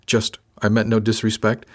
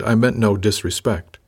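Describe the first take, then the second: First: Teasing mock quote of his apology; mock echo. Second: Said in the usual way. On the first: A narrator's reading. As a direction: parrot his words back, lightly mocking. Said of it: "That's it, Sar?".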